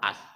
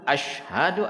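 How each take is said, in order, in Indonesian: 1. Diucapkan dengan bunyi 's'. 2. Diucapkan dengan bunyi 'sh'. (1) "Banyak orang as. Itu salah lah" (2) "itu shin bukan sin"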